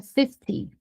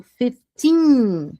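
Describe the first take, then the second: First: "fifty" stressed on the first syllable, short "ty"; FIFTY short ending. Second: Put-on "fifteen" with a long, falling "teen"; FIFTEEN drawn out. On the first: Teacher contrasts fifty with fifteen, short ending. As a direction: keep the end of "fifty" brief. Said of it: "O quinze eu puxo ... o cinquenta". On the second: Teacher contrasts fifteen with fifty, long final syllable. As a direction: stretch the ending of "fifteen". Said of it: "O quinze eu puxo". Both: Shown as a demonstration.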